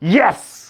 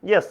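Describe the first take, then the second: First: It is said with strong excited emotion. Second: It is said flatly with no emotion. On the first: The speaker is thrilled about a result. "এই যে একটা যে আবেগ নিয়ে আছে" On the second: The speaker simply answers a question. "ওই yes না"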